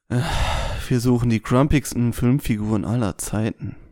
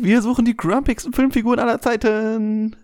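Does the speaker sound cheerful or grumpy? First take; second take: grumpy; cheerful. First: The line is said in a grumpy, sullen tone. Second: The line is said in a cheerful, upbeat tone. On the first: The speaker calls it right. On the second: The speaker calls it wrong. "achte bitte auf deinen Tonfall"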